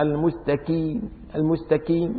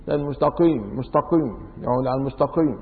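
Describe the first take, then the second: First: المستقيم with a front k, "al-mustakeem"; qaf as kaf. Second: المستقيم with a back q, "al-mustaqim"; qaf in between. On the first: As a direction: turn the ق of المستقيم into ك. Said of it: "بينطقوا القاف كاف". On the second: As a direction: keep the ق of المستقيم back in the throat. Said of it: "هلا في ناس بيحكوا". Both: Shown as a demonstration.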